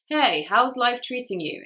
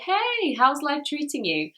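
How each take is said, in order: First: It is said in a flat, uninterested voice. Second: It is said in a lively, interested voice. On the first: The speaker shows no interest in the other person. The speaker calls it wrong. "In a very flat way" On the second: The speaker shows interest in the other person's life. The speaker calls it right. "We normally would say"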